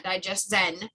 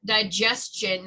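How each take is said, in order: First: "digestion" misspoken with a -zen ending; mock slip of tongue. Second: "digestion" slowly, ending in a clear -chun; careful correct pronunciation. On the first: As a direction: repeat the slip in "digestion": di-JES-zen, slowly. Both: Shown as a demonstration. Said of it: "not digestion".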